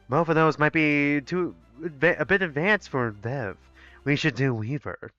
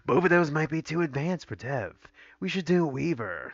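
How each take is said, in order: First: It is said in a plain voice. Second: It is said with a growl.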